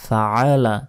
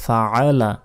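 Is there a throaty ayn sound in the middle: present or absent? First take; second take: present; present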